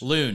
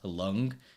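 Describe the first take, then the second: First: The name sounds like loon, rhyming with moon. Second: The name ends in an ng sound, like lung. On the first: This is the version used in America. "Loon like the moon, but with an L" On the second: This is the speaker's actual name. "my actual name is spelled L U A N and it's pronounced Lung"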